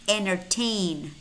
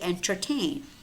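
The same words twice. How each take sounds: First: The first t sound is silent. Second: The first t sound is clearly pronounced. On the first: "The first letter T is not pronounced" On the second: "Although you could say entertain"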